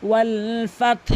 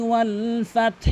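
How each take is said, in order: The two takes are said the same way.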